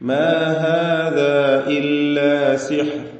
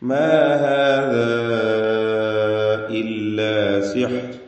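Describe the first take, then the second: First: The vowel before 'illa' is held short. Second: The vowel before 'illa' is held long. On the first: "ആ ദീർഘം ഒഴിവാക്കി ... രണ്ട് ഹറക്കത്തിന്റെ അളവിലുള്ള തബീഇയ ദീർഘം മാത്രം" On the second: "അലിഫിനെ നാലോ അഞ്ചോ ഹറക്കത്തിന്റെ അളവിൽ ദീർഘിപ്പിക്കൽ അനുവദനീയമാണ്"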